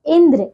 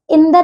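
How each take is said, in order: First: इंद्र with joined "dr": indra; correct pronunciation. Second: इंद्र split as "indar"; mispronunciation. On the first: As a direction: join d and r in इंद्र. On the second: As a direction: put a vowel before the r of इंद्र. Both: Shown as a demonstration. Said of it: "इंद्र नहीं".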